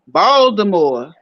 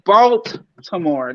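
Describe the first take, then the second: First: The middle consonant sounds like a D. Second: The middle consonant is a clear T sound. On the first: "Ain't no T. It's, it's like a D up in that joint" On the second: "They don't say Baltimore"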